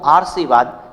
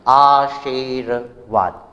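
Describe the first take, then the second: First: The r sound comes before the 'shi' syllable. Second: The r sound comes after the 'shi' syllable. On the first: The speaker calls it wrong. "र का उच्चारण श और ई से पहले हो गया है" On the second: The speaker calls it right. "मेरे उच्चारण को भी देखा होगा अच्छे से"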